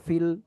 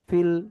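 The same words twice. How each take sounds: No difference in how they are said.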